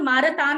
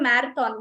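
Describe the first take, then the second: First: The first vowel is an open 'ah' sound. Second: The first vowel is the 'a' of 'cat'. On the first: The speaker calls it wrong. "మిస్ప్రొనౌన్స్ చేసి మారథాన్ మారథాన్ అంటూ ఉంటారు" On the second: The speaker calls it right. "Generally we trainers we go for మ్యారథాన్"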